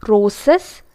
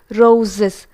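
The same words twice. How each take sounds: First: "roses" as ROH-sess; voiceless s for both s's in "roses"; hissed s mispronunciation. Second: "roses" as ROH-ziss; voiced z pronunciation. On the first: Teacher showing learners' error, "roses" with s sounds. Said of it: "We tend to use the s sound". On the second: Teacher correcting learners, "roses" with voiced z. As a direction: buzz the middle z in "roses". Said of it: "the correct form is z". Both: Shown as a demonstration.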